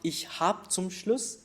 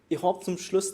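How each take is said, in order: First: It is said in standard German pronunciation. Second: It is said with an Austrian pronunciation. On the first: "not ich hab zum Schluss" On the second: "it's a very Austrian way of speaking"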